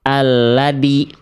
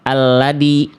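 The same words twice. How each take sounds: No difference in how they are said.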